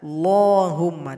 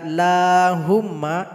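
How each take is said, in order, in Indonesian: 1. Bunyi L-nya tebal dan berat. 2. Bunyi L-nya tipis dan ringan. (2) "itu dibaca tipis"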